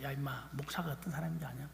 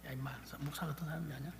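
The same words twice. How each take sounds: First: Quiet retold father. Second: Quieter, faster retold father. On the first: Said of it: "늘 그렇게 이야기를 했습니다". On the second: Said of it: "저한테 그렇게 말했어요".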